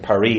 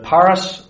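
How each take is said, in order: First: The name is said with French pronunciation. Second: The name is said with English pronunciation. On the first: "Something like Paris" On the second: "I know that Paris is not how the French say it"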